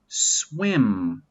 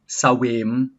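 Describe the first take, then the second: First: The s runs straight into the w sound. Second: A vowel is inserted after the s sound. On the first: The speaker calls it right. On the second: The speaker calls it wrong.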